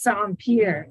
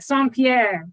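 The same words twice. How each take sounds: First: Pierre sounds like the word pier. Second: Pierre does not sound like the word pier. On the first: The speaker calls it right. "it's like sand and like a pier" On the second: The speaker calls it wrong. "that's not how you pronounce that"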